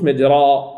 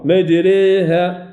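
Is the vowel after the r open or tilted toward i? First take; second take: open; tilted. First: The vowel after r is a pure open a. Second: The vowel after r leans strongly toward i. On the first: The speaker calls it wrong. "ما قلوش مجراء، ما يمكنش" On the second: The speaker calls it right. "مجريها كبرى"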